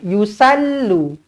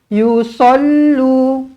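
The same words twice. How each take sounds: First: The s sound is light and thin. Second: The s sound is heavy and full. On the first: The speaker calls it wrong. "Bukan yusallu. ... kalau sal huruf sin" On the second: The speaker calls it right. "Ini huruf sod"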